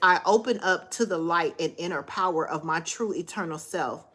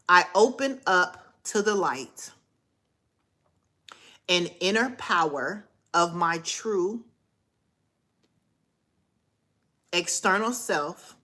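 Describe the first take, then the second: First: The sentence is spoken at a normal, quicker pace. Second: The sentence is spoken at a slower pace.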